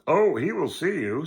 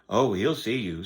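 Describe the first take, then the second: First: It is read in a put-on character voice. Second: It is read in the reader's normal voice. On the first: The speaker calls it right. "so I can do the voice thing" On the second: The speaker calls it wrong. "I forgot"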